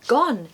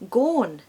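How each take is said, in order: First: Said with a short southern English vowel. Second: Said with a longer Scottish vowel. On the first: "the short O in gone" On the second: "turns to gone"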